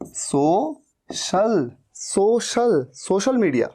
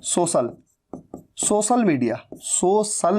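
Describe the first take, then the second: First: सोशल as "so-shal", with sh; correct sh sound. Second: सोशल as "so-sal", with s; students' s mistake. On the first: Teacher correcting students to "so-shal". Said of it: "सोशल नहीं". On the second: Teacher imitating students' wrong "so-sal". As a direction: say सोशल with no sh at all. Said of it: "गलती क्या कर देते हैं students". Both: Shown as a demonstration.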